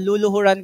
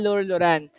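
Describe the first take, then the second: First: The first syllable has no r sound. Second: The first syllable ends with an r sound. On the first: The speaker calls it wrong. "Baka sabihin niyo po" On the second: The speaker calls it right. "yan po yung tamang pagbigkas"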